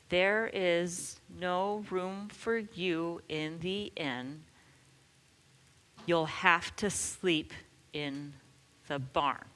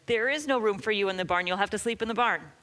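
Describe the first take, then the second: First: It is said slowly. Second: It is said as fast as possible.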